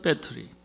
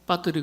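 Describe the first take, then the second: First: It is said with American English pronunciation. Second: It is said with Korean loanword pronunciation. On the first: This is how it should be said. The speaker calls it right. "그래야 되는데" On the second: Americans would not understand it. The speaker calls it wrong. "배터리 그러면 미국 사람 잘 몰라요"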